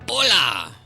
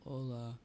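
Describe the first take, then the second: First: It is said with lively pep. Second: It is said flatly, without pep.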